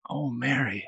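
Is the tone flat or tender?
tender. It is said in a warm, tender way.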